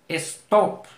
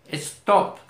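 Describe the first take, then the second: Both takes have the same delivery.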